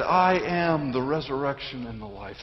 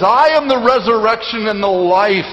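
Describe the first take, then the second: First: Soft, lowered scripture quote; hushed recollection. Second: Strong, declarative scripture quote from the pulpit; ringing proclamation. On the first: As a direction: recall it quietly, letting the voice drop. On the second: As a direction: proclaim it boldly, voice raised. Proclaiming Christ's words to congregation. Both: Acted.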